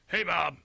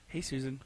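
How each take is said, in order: First: It is said loudly with high energy. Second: It is said softly with lowered energy.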